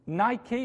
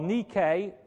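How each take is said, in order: First: It is said with an English pronunciation. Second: It is said with a Greek pronunciation. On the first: The speaker calls it wrong. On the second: The speaker calls it right.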